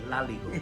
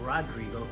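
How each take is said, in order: First: The name is said with L sounds. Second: The name is said with R sounds. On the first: Someone who does not pronounce R said it. "he would say Laligo" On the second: This is the proper form of the name. "instead of saying Rodrigo"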